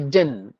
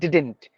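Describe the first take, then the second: First: The t after n is dropped. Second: The t after n is clearly pronounced. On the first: "They say didn't" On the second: "They don't use the term, the pronunciation style didn't"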